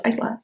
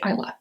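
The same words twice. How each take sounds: First: "Isla" as ICE-la, with an audible S; narrator's pronunciation, S sounded. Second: "Isla" as EYE-la, no S at all; own pronunciation, silent S. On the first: Reader quoting the audiobook narrator, "Isla" as ICE-la, S pronounced. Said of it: "the audiobook narrator says Isla". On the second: Reader preferring her own version, "Isla" as EYE-la, silent S. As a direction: drop the S from "Isla". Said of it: "I would say Isla". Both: Shown as a demonstration.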